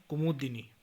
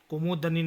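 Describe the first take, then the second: First: Said in the usual way. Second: कुमुदनी with a after d; mispronunciation. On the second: Shown as a demonstration. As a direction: say kumu-da-ni for कुमुदनी. (कुमुदनी, द पर अ) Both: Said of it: "नहीं".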